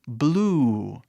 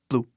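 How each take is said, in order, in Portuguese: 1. A vogal é esticada um pouco mais. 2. A vogal é curta e seca. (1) "esticando quase o som" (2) "a pronúncia não é blue"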